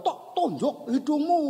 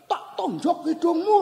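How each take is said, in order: First: High echo of a threat; imitated distant answer, high-pitched; echo answering back. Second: High mock threat called out; high-pitched play-acted irritation; annoyed child. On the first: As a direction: imitate the ravine throwing the call back. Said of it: "Sana jawab". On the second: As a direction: imitate a cross kid hollering a threat. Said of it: "Wah, dia makin jengkel".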